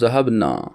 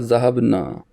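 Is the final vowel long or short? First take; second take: short; long. First: The final vowel is kept short. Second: The final vowel is drawn out long. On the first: A group of women went. "लेकिन नून के बाद अलिफ नहीं होगा" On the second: A group of men went. "नून के बाद अलिफ है तो लोंग खींचेगा"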